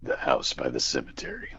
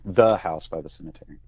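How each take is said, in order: First: It is said in a creepy, froggy voice. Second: It is said in a normal speaking voice.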